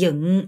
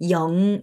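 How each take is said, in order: First: 영 with the Vietnamese "ư" vowel, as in dựng, lips slightly open; correct Vietnamese 영. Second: 영 said as the plain Korean syllable, with a clear "yeo" vowel; simplified 영. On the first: Teacher shows learners the proper way, 영 as Vietnamese "yưng". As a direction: say 영 as "yưng", not Korean "yeong". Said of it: "영 이렇게 발음하셔야 됩니다". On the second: Teacher offers struggling learners a fallback, Korean-style 영. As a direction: approximate it with an easy Korean 영. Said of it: "정 안 되시는 분들은 영 이렇게". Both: Shown as a demonstration.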